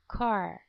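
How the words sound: It is said in an American accent. "we say car. We use the other A, more similar to cat"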